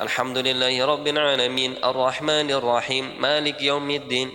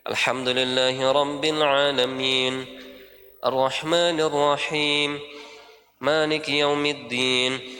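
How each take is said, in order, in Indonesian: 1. Berhenti di jeda tanpa mengambil nafas. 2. Di setiap jeda diambil nafas. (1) "itu enggak ngambil nafas. Salah ya" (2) "Kalau sukun berhenti ngambil nafas walaupun sedikit"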